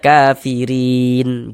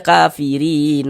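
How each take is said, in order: First: The word ends on a bare, stopped n. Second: The final n carries a vowel after it. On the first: The speaker calls it right. "kita berwakaf di huruf non, kita baca kafirin" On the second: The speaker calls it wrong. "Jangan dibaca kafirin"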